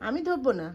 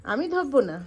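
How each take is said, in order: Both takes have the same delivery.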